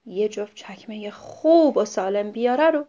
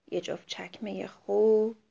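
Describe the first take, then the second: First: Said in the usual way. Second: Soft whispered «چکمهٔ خوب»; a sorrowful whisper; sad whisper. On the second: Acted. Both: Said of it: "با ناراحتی گفت".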